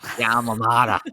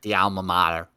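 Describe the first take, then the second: First: It is said in a New York accent. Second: It is said in a plain everyday accent.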